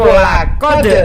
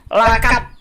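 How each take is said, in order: First: The word ends with a d sound. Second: The word ends with a t sound. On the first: The speaker calls it right. "padahal di situ lakod" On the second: The speaker calls it wrong. "Di situ dia menyebut lakat"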